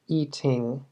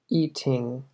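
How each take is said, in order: First: The middle t is crisp with a puff of air. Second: The same.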